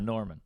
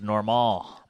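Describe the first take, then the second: First: The name is said with an English pronunciation. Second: The name is said with a French pronunciation. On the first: It sounds unpretentious. "I'm not that big of a douche, so I just, you know" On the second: It sounds pretentious. "It's French, so it's"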